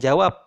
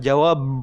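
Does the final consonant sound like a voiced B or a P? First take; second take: P; B. First: The final consonant is a voiceless, unreleased P. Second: The final consonant is a voiced, buzzing B. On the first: The speaker calls it right. "Kemudian jawab" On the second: The speaker calls it wrong. "bukan jawab"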